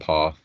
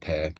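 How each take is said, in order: First: The name rhymes with car. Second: The name rhymes with care. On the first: "depending on how you like to pronounce it" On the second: "depending on how you like to pronounce it"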